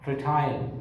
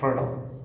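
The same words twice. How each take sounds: First: It is said in a British accent. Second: It is said in an American accent. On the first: "British speaker will pronounce them as" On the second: "But the American speaker will pronounce these words as"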